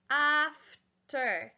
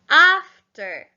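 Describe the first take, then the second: First: "After" in two beats, af, ter; split into syllables. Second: Said in the usual way. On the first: Shown as a demonstration. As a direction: slowly break "After" with a gap between the syllables. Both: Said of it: "There's two syllables".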